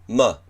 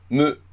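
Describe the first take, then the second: First: The consonant is followed by an ah vowel. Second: The consonant is followed by an oo vowel. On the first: The speaker calls it right. "あをつけます" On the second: The speaker calls it wrong. "む、む、す、すじゃなくて"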